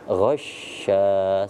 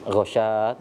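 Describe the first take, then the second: First: The sh sound is held before moving on. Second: The sh sound is cut short, said straight through. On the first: The speaker calls it right. "ditahan dulu ghasya, seperti itu karena ada tasydid" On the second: The speaker calls it wrong. "jangan dibaca langsung ghasya"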